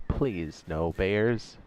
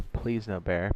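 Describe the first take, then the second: First: Slow drawn-out plea. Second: Said in the usual way. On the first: Real, not acted. Streamer walking back to his carcass, dreading a bear, slow plea. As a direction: stretch every word, dreading it.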